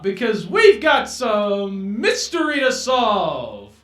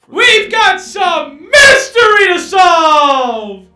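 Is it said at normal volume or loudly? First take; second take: normal; loudly. First: It is said at normal volume. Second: It is said louder.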